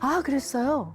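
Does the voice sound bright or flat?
bright. The voice is raised and bright. The speaker calls it right. "목소리는 약간 그 솔톤으로 업"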